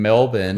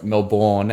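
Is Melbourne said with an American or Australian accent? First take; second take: Australian; American. First: It is said in an Australian accent. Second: It is said in an American accent.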